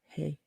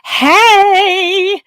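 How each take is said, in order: First: It is said quietly and low-key. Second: It is said loudly and excitedly.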